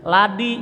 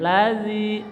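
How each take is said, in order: First: The middle consonant is a d sound. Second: The middle consonant is a soft th sound. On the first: The speaker calls it wrong. "ladi juga nggak boleh" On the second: The speaker calls it right. "ujung lidah ratakan sama ujung gigi"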